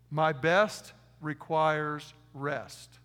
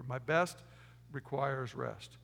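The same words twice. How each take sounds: First: Very slow, spaced "My best requires rest"; slow dictation. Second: Slow repeat. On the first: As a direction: dictate it slowly, word by word. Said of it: "Write this down". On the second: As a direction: split "My best" then slow "requires rest". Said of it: "Write that down". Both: Shown as a demonstration.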